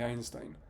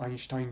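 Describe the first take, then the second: First: The name is said with a Spanish-style pronunciation. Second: The name is said with a German-style pronunciation. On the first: The speaker calls it wrong. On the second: The speaker calls it right.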